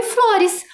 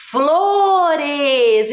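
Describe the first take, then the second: First: Said in the usual way. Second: FLORES stretched very long, both syllables held; sounding out. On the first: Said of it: "a primeira palavra que escrevemos". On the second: Shown as a demonstration. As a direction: read FLORES to children in slow, sustained syllables. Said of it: "O que escrevemos?". (Flores bem esticado, lendo devagar)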